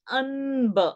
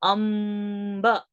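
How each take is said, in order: First: The nasal before b is an n sound. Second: The nasal before b is an m sound. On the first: The speaker calls it wrong. "We don't say Anb" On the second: The speaker calls it right. "we are reading that Anuswara as M"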